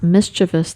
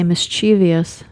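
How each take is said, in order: First: It ends in -vus with no ee syllable. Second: It has an extra ee syllable before -ous. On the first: The speaker calls it right. "It's not a V I O U S. It's it's V O U S" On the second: The speaker calls it wrong. "we like to say mischievous, but it's actually not"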